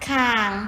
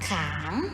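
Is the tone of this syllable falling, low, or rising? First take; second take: low; rising. First: The syllable is said with a low tone. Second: The syllable is said with a rising tone.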